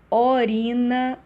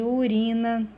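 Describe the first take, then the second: First: "Orina" with an open, drawn-out O opening; hypercorrect O for U. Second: Said in the usual way. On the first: Shown as a demonstration. Teacher showing students a hypercorrection, "Orina" with O for U. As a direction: stretch the first vowel of "Orina" as O, not U. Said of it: "troca do u por o". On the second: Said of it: "ao invés de".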